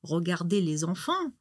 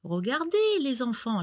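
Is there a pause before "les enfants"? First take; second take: no; yes. First: It runs on with no pause before les enfants. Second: A break sets off les enfants as the addressees.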